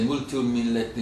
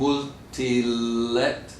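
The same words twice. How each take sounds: First: "multumillet" with every syllable crowded in; unelided pronunciation. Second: "Multilet" very slow, the syllables drawn out; elided pronunciation. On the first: Showing students what not to say, "multumillet" unelided. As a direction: stumble through "multumillet" without dropping the middle. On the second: Showing students how to elide, "Multilet" slow and run together. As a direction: stretch "Multilet" smoothly as one elided word. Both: Shown as a demonstration. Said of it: "we don't say multumillet".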